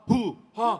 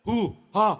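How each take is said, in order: Both takes have the same delivery.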